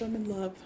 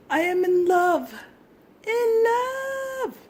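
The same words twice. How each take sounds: First: Said in the usual way. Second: Much higher and louder, squealed; gushing squeal. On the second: Real, not acted. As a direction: squeal it out, smitten. Gushing over craft.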